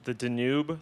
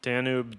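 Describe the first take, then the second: First: "Danube" as duh-NOOB, questioning rise; doubtful pronunciation. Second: "Danube" as DAN-yoob; corrected pronunciation. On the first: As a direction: stress the second syllable of "Danube", unsure. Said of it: "am I pronouncing it weird". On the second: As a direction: stress the first syllable of "Danube". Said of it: "It might be the Danube". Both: Shown as a demonstration.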